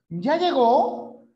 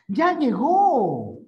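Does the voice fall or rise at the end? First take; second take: rise; fall. First: The pitch rises at the end. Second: The pitch falls at the end. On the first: It is a yes-or-no question. "la entonación es ascendente" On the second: It is an exclamation. "la admirativa o exclamativa tiene entonación descendente"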